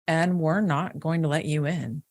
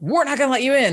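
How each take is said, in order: First: It is said slowly with clear enunciation. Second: It is said quickly and casually.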